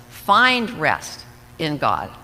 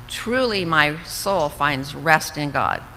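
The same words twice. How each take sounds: First: Slow imperative, FIND leaned on; gentle command. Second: Slow, settled declarative reading; calm statement. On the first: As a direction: urge yourself with it. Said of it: "It's an imperative. It's almost a command". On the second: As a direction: say it as a plain fact. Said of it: "it's a statement". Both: Shown as a demonstration.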